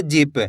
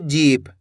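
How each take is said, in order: First: जीप said quickly with a short i; जीप as a brief "jip". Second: जीप with its ee stretched; stretched long ee. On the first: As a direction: snap through the vowel of जीप. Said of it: "तेजी के साथ उच्चारण हो रहा है". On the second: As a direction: hold the vowel in जीप. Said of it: "खींच के पढ़ी जा रही है". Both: Shown as a demonstration.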